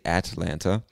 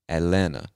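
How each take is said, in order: First: The t sounds are pronounced. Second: The t sounds are dropped. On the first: "you can say Atlanta, totally fine" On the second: "We don't pronounce either one of them"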